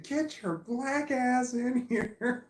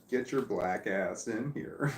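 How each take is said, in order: First: Very high, loud, slow laughing scream; screaming at the dog. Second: Drawn-out, mild mock yell; slow retold yell. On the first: Retold or imitated. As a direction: belt it out the back door, laughing. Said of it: "I screamed". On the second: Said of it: "So I yelled out the door".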